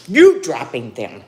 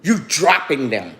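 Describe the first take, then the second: First: The same words hit louder; firmer, louder second telling; louder repeat. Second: Said in the usual way. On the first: Real, not acted. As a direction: push the repeat out harder. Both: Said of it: "repeats the line for emphasis".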